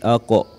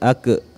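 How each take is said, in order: First: The bounce after the q sounds thick, like o. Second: The bounce after the q sounds thin, like e. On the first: The speaker calls it right. "tapi aqo, karena dia adalah huruf yang dibaca tebal" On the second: The speaker calls it wrong. "bukan ake"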